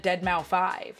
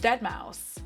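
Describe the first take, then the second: First: The name ends with the spoken word five. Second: The name ends without the word five. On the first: The speaker calls it wrong. "I was calling the man Dead Mouse five" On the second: The speaker calls it right. "Apparently it's Dead Mouse"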